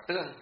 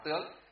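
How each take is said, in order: First: Tương said with an even, unmarked tone; tương with level tone. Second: Tướng said with a rising tone. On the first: Teacher gives the correct reading, tương in level tone. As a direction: keep tương level, without a rise. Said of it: "người ta lại đọc là tương". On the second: Teacher shows students the reading to avoid, tướng with rising tone. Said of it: "không đọc là tướng". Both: Shown as a demonstration.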